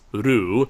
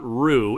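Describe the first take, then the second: First: The r is a light tongue tap. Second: The r is an English-style r. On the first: The speaker calls it right. "lightly touch the roof of your mouth with your tongue" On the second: The speaker calls it wrong. "not ru"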